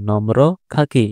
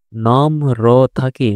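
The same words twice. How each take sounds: First: Said in the usual way. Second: "নম্র থাকি" read very slowly with নম্র drawn out and each sound clear; slow model reading. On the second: Shown as a demonstration. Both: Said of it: "র ফলার জন্য র উচ্চারণ হবে".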